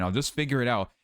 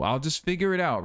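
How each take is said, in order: First: Said in the usual way. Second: Breezy, lifted mock-optimism; mock carefree. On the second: Mocking his own plan with light breeziness. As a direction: toss it off like a naive plan. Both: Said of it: "And what a weak plan to have".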